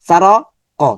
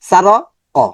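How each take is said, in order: No difference in how they are said.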